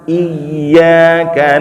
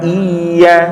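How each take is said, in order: First: The y sound is doubled and pressed. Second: The y sound is short and single. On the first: The speaker calls it right. "Ditekan ketika masuk ke ya" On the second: The speaker calls it wrong. "jangan iya"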